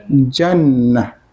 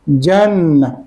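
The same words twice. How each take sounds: First: The word ends with a soft h sound. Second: The same.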